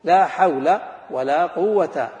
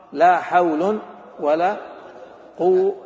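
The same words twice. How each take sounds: First: حول said slowly and loudly as hawla, with a clear fatha ending; teacher spells out حول as hawla, each word drawn out; slow drilled recitation with fatha. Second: حول said slowly and loudly as hawlun, with a clear nunated damma; teacher stresses the hawlun ending, drawn out and loud; slow drilled recitation with damma. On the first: Teacher drilling the class, slow loud fatha reading. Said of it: "إيش نقول؟". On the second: Teacher showing the class the second reading, slow loud damma. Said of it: "أو". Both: Shown as a demonstration.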